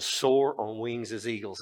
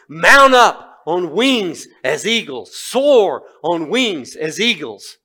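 First: Said in the usual way. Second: Slow, loud, high declaiming; proclaimed scripture. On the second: Acted. Preacher recalling the eagle verse to congregation, slow loud proclamation. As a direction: ring the verse out slowly. Verse recited in his mind.

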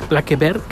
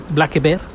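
The two takes are said the same way.

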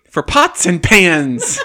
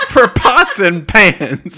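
First: Slow words broken by real laughter; laughing. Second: Higher, louder, slower, helpless with laughter; laughing harder. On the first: To the table about the cheap sale, laughing slowly. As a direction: laugh out the words, stretched and loud. Player cracking up at the joke. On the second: Repeating the joke to the table, laughing even harder. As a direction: squeal the words through a laughing fit. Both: Real, not acted.

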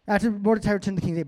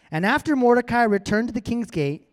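First: Rattled off fast, running the words together; quick re-read. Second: Said in the usual way. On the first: A narrator's reading. Reader hurries back through a line just read, rapid. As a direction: race back over the line.

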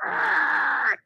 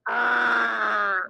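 First: A short growled "Argh!" like a lobster with claws up; mock lobster growl. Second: Louder copied "Argh!", a little shouted; toddler's copied growl. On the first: Babysitter showing a toddler a lobster noise, growled "Argh!". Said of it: "trying to teach her how to make a lobster noise". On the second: Retold or imitated. Babysitter imitating the toddler copying her, shouted "Argh!". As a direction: shout the growl back like a copying two-year-old.

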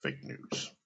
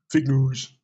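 First: "fake news" said softly and darkly; quiet, ominous. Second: "Fake news" barked loud and dismissive; mock yell. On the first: Shown as a demonstration. Naming Trump's two deadliest words, said soft. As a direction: let "fake news" drop soft and grave. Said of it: "the two deadliest words". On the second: Mocking Trump shouting "Fake news" at reporters. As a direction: spit out "Fake news" like a put-down. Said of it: "you yell at them".

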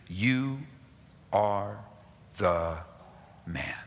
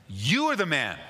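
First: "You" ... "are" ... "the" ... "man" each word set apart by long pauses, fading away; slow, spaced-out accusation. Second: "You are the man" said in one rush, stress on "are"; exclaimed accusation. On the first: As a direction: let every word of "You are the man" land alone. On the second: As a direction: fire it out as an exclamation. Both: Acted. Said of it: "With an exclamation point".

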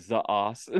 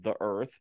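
First: "the ass" said as "za assu"; "the ass" with Japanese z for th; Japanese accent. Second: Said in the usual way. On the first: Retold or imitated. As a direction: imitate Japanese pronunciation of "the ass". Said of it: "Sounds like". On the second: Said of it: "brings up about the word".

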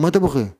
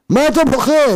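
First: Said in the usual way. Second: High, loud challenge; shouted rebuke. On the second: Acted. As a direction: demand it at full voice. Rebuking the weepers, acted out.

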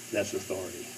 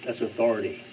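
First: A softer lower repeat of "That's authority"; quiet echo. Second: Said in the usual way. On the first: Acted. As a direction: drop it softer and lower, almost to yourself. Quiet echo of key phrase.

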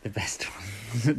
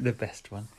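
First: Mocking whisper. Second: Said in the usual way. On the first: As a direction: breathe it out slowly.

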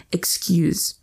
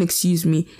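First: Terse "Excuse." without the me; curt clipped excuse. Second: Said in the usual way. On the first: Retold or imitated. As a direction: cut it short as "Excuse." with the me dropped. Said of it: "not even "Excuse me," "Excuse". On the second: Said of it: "No, no, not even".

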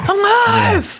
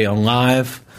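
First: Very high screamed movie line; imitated scream. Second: Said in the usual way. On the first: Mimics the movie Alive for the co-host, high-pitched scream. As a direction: scream it like a trailer. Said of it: "just screaming".

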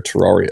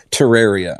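First: Terraria said "tuh-RAR-ee-uh"; Terraria with an open "ah" middle; habitual mispronunciation. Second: Terraria said "tuh-RARE-ee-uh"; self-corrected Terraria, middle rhyming with rare; proper pronunciation. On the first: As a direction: say Terraria with an "ar" as in car. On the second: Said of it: "It's properly pronounced Terraria". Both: Real, not acted.

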